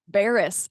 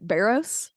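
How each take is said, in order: First: The second vowel is weak and reduced. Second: The second vowel is a strong, full O. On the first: The speaker calls it right. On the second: The speaker calls it wrong.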